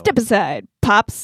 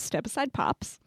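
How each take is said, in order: First: The title is said with lively, expressive inflection. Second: The title is said in a flat, plain way.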